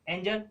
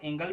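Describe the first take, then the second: First: The g is said as a j sound. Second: The g is said as a hard g. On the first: The speaker calls it right. "एंजल ज पढ़ना पड़ रहा है" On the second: The speaker calls it wrong. "आप इसको आप एंगल भी कह सकते हो पर नहीं कह सकते ना"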